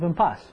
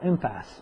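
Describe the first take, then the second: First: It is said in a non-American way. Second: It is said in an American way.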